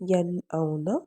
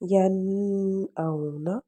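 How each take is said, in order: First: The n sound is pronounced clearly and distinctly. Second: The n sound is blurred instead of clear. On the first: The speaker calls it right. "उनकी आवाज़ को हमने ज़ाहिर करना है" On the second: The speaker calls it wrong. "हम इसको इस तरह से नहीं पढ़ेंगे"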